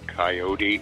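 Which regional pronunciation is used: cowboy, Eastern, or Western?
Eastern. It is said the Eastern US way. The speaker is from the eastern US. "Guys from back east say coyote"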